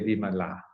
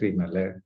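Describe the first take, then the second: First: The name is said in its female form. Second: The name is said in its male form. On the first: The person named is a woman. "for women we say Vimala" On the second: The person named is a man. "For men, for we say we pronounce it as Vimala"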